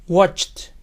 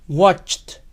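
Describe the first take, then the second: The two takes are said the same way.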